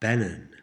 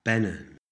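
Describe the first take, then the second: No difference in how they are said.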